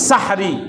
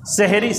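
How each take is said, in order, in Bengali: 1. প্রথম স্বরধ্বনিটি একটি খোলা 'a' ধ্বনি। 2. প্রথম স্বরধ্বনিটি একটি 'e' ধ্বনি। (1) "শব্দটা মূলত কি?" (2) "সেহরি বলা ঠিক না"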